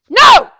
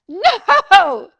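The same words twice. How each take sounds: First: It is said loudly and forcefully. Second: It is said softly and weakly.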